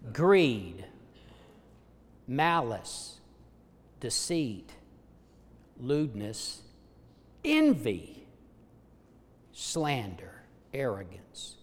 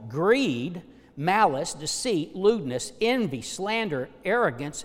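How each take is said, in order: First: The list is read more slowly. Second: The list is read at normal speed.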